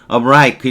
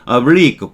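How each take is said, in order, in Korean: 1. 군사 용어의 발음을 사용합니다. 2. 일반적인 일상 발음을 사용합니다.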